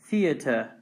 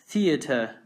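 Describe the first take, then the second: First: It is said with a British pronunciation. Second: It is said with a British pronunciation.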